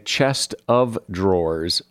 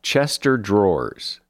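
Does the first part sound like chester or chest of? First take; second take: chest of; chester. First: The first part is said as chest of. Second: The first part is run together as chester. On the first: The speaker calls it right. "it is correct to say chest of drawers" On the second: The speaker calls it wrong. "here's one I hear a lot"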